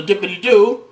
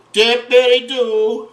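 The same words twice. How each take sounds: First: Said in the usual way. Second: "Dippity-doo" stretched slowly in a higher voice; slow, high, playful "Dippity-doo"; drawn-out playful. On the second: Pretend. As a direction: sing out "Dippity-doo", syllable by syllable. Playful repeat while dipping the fish.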